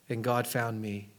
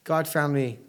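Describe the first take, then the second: First: Softer and slower, almost hushed; hushed, reverent. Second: Said in the usual way. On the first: Retold or imitated. Preacher quoting a prisoner's letter, soft and slow. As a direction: let the words sink in quietly, in awe.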